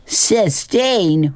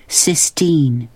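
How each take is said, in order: First: High-pitched, incredulous echo of the name; mocking hoot. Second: Plainly stated name with falling end; girl stating her name. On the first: Billy makes fun of the girl's name, mocking hoot. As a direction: hoot the name back in ridicule. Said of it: "hooted Billy". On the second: Acted. New girl tells the boys her name, plain firm statement. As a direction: give the name firmly, slightly higher-pitched. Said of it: "she said slowly".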